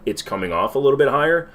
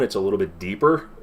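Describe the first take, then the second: First: Slightly raised, more animated speaking voice; emoting a bit more, pitched up slightly; higher register. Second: Natural voice, let it sit lower; a little bit deeper, unforced; deeper normal tone. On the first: Real, not acted. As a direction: lift the voice a little higher. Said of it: "speaking in a higher register". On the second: Shown as a demonstration. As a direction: drop to a relaxed deeper register. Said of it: "if I speak at my normal tone".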